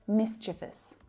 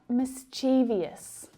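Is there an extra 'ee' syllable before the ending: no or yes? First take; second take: no; yes. First: It has three syllables with no extra sound. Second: It adds an extra 'ee' syllable before the ending. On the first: The speaker calls it right. "There is only one I here" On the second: The speaker calls it wrong. "Not mischievous"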